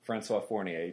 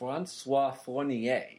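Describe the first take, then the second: First: The name is said with English pronunciation. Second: The name is said with French pronunciation.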